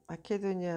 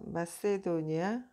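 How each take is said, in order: First: The third syllable starts with a k sound. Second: The third syllable starts with an s sound. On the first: This is the original Greek pronunciation. "원래 그 헬라어에서는 마케도니아가 맞을 거예요" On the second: This is the English pronunciation. "영어로는 그렇게 발음하고"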